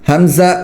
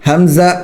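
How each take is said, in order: Both takes have the same delivery.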